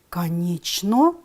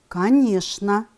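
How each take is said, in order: First: It is read exactly as it is spelled. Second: It is said with its normal spoken pronunciation. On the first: "пишем" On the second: "произносим"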